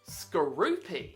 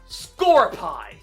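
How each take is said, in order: First: The name is said as Skorupi. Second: The name is said as Scorpie. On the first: The speaker calls it right. "It is Skorupi" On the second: The speaker calls it wrong. "some stupid people call it Scorpie"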